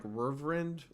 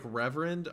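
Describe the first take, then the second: First: "Reverend" with slurred, blurred R sounds; speech impediment. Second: Said in the usual way. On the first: Shown as a demonstration. Streamer showing chat his old speech impediment on "Reverend". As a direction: mimic the childhood lisp on "Reverend". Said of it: "I would say words like reverend". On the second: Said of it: "I'd be like".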